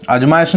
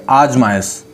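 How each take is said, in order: First: आजमाइश with a short first a, rising; wrong pronunciation. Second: आजमाइश with a long opening aa, falling; correct pronunciation. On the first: Teacher rejects a form for students, short-vowel mispronunciation. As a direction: clip the opening vowel of आजमाइश. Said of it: "आजमाइश नहीं". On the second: Teacher gives the accepted form, long first vowel. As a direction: open आजमाइश on a full long aa. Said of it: "आजमाइश बोलते हैं". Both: Shown as a demonstration.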